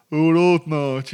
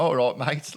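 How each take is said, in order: First: Loud, high, exaggerated Brummie; hammed-up Brummie, blaring and drawn out; caricature Birmingham accent. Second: Put-on cheery everyday Birmingham accent greeting; easy Brummie hello, in your real accent; own Brummie accent. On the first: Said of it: "the Birmingham accent was, like, associated with". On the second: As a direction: drop back into natural Brummie, a bit higher and louder. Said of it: "So I went straight back into my".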